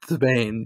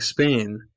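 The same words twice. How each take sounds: First: It starts with a lisped th sound. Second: It starts with a plain s sound.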